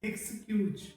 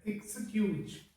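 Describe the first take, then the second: Both takes have the same delivery.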